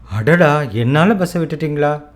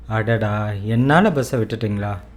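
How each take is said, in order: First: It is said in an excited, happy tone. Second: It is said in a regretful, sorry tone. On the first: It expresses pleasant surprise. The speaker calls it wrong. "You cannot say" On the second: It expresses regret for causing a problem. The speaker calls it right. "Instead, you would say"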